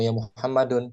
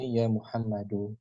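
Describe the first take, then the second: First: The name ends with an added n sound. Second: The name ends on a vowel, without n. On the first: The speaker calls it wrong. "Nggak boleh ya Muhammadun. Salah ini keliru" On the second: The speaker calls it right. "Mesti ya Muhammadu"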